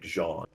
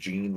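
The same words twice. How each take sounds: First: The name is said the French way, like 'zhahn'. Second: The name is said the English way, like 'jeen'. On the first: "like like French" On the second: "like Jean Grey"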